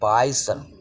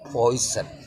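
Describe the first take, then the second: First: The first vowel sounds like 'ai'. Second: The first vowel sounds like 'oi'. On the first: The speaker calls it wrong. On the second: The speaker calls it right.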